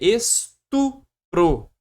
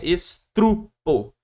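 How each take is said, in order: First: The r comes after the p, not the t. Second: An r comes right after the st. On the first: The speaker calls it right. "Então é estupro" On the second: The speaker calls it wrong. "não é estrupo"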